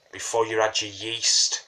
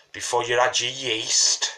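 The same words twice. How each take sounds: The two takes are said the same way.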